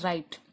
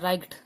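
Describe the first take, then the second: First: No g sound is pronounced before the t. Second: A g sound is pronounced before the t. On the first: The speaker calls it right. "जी एच को हम silent कर देंगे" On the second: The speaker calls it wrong. "इसको तो हम ग पढ़ते हैं तो ना, तो ये क्या बनता है राइट, तो वो गलत है"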